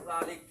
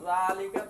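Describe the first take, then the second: First: The word ends on a silent consonant. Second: The word ends with a short vowel. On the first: "এখানে কিন্তু সাকিন দিয়ে পড়তে হবে"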